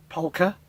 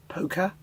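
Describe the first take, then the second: First: POLKA with the L sounded, rising as a question; questioning pronunciation. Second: POLKA with a long O and silent L, like "poke-a"; questioning pronunciation. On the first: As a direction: ask POLKA, sounding the L before the K. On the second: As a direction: ask POLKA as "POH-kuh", dropping the L. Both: Shown as a demonstration. Trying out how polka is said.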